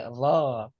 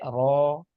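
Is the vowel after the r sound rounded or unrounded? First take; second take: unrounded; rounded. First: The lips stay unrounded on the vowel. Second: The lips are rounded on the vowel. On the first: The speaker calls it right. "tapi lo" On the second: The speaker calls it wrong. "jangan sampai ro"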